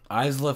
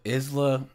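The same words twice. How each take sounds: First: "Isla" said EYEZ-luh; first syllable of "Isla" like "eyes"; Isla with long i. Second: "Isla" said IZ-luh; first syllable of "Isla" like "is"; Isla with short i. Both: Real, not acted. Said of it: "Is her name?".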